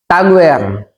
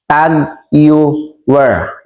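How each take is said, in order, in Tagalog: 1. Parang 'Tagwer' ang bigkas sa pangalan. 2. Parang 'Tag Heuer' ang bigkas sa pangalan. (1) "Ang iba naman" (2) "ang tama pong pagbasa dyan at pronunciation po niyan"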